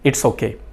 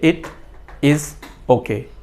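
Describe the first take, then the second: First: It is is contracted into one syllable. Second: It and is are said as separate words. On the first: The speaker calls it right. "एक दूसरी example" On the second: The speaker calls it wrong. "हम ऐसा नहीं कहते"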